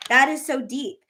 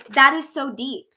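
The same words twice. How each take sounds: First: Said in the usual way. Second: Drawn-out "So that is so deep"; slow emphatic. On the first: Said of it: "So that is so deep". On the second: Shown as a demonstration. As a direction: linger on "that" slowly.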